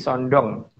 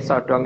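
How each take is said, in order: First: An n sound is added before the d. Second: There is no n sound before the d.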